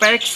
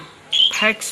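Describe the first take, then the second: First: The word begins with a p sound. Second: The word begins with an f sound. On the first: The speaker calls it right. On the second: The speaker calls it wrong.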